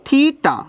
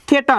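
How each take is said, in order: First: The first vowel sounds like 'ee' in 'see'. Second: The first vowel sounds like 'e' in 'bed'. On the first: The speaker calls it right. "থিটা মনে থাকবে" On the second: The speaker calls it wrong. "থেটা না"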